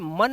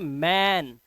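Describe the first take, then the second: First: The vowel is short and central, like cup. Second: The vowel is front and open, like cat. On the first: The speaker calls it wrong. "इसे मन नहीं" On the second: The speaker calls it right. "इसे पढ़ते हैं मैन"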